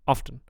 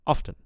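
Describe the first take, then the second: First: The first vowel is clipped short. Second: The first vowel is clipped short.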